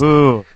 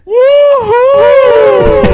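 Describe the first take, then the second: First: It is said with little energy. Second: It is said with lots of energy.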